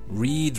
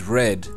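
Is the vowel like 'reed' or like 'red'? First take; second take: reed; red. First: The vowel is a long ee sound. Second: The vowel is a short eh sound. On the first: It is the present tense. "the pronunciation changes from E to E" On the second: It is the past tense. "the pronunciation changes from E to E"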